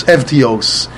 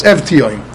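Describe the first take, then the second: First: Evtios slowly, ev-tee-ohs; drawn-out "Evtios", v sounded, ending ohs; Greek pronunciation. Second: Evtioim ending in m, ev-tee-oym; "Evtioim" with v sounded and humming m at the end; Mishnah's final mem. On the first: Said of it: "In Yavanis". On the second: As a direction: say "Evtioim" closing on m rather than s. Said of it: "saying a Mem in the end". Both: Shown as a demonstration.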